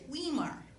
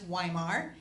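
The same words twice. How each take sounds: First: The first vowel does not sound like 'eye'. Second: The first vowel sounds like 'eye'. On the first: This is how teachers misread the name. The speaker calls it wrong. "the teachers always pronounced it" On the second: This is how the family says the name. The speaker calls it right. "the E I is pronounced as a Y"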